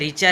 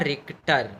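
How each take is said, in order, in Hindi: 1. इसमें ch जैसी आवाज़ है, k नहीं। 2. इसमें t से पहले k की आवाज़ होती है। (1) "मैंने आपको रिचर कहा वो प्रोनाउंसिएशन गलत है" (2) "इसका सही उच्चारण है रिक्टर"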